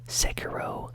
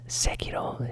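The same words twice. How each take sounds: First: The name is said with English-style pronunciation. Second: The name is said with Japanese-style pronunciation.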